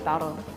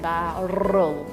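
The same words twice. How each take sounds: First: The word is said quickly and clipped. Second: The word is said slowly and drawn out. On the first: "then we just say it fast" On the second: "If you say it really slowly"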